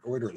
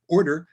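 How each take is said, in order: First: Said in the usual way. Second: "order" said higher and louder; emphatic self-correction. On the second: Real, not acted. Host fixing a stumbled word for the audience, emphatic "order". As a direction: land firmly on "order", raised and loud.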